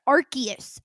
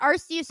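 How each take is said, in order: First: The c is pronounced hard, like a k. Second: The c is pronounced soft, like an s. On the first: The speaker calls it right. "like Latin style, hard C's only" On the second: The speaker calls it wrong. "I've pronounced it Arceus my whole life because I'm stupid"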